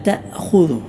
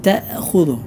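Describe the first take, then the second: Both takes have the same delivery.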